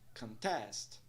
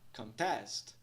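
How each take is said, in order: The two takes are said the same way.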